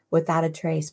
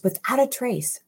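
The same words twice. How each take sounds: First: Said in the usual way. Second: "Without a trace" lifted high to underline it; emphatic repeat. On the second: Real, not acted. Preacher marvelling at enemies vanishing, higher emphatic "Without a trace".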